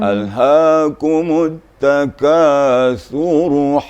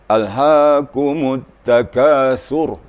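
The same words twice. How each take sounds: First: The final r carries a vowel into the next word. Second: The final r is said bare, with no vowel. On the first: The reader joins it to the next verse. "apabila kita gabung dengan ayat berikutnya, maka ra-nya tetap berbaris" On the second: The reader stops at the end of the verse. "kalau kita berhenti memang ... ra-nya dimatikan atau disukunkan"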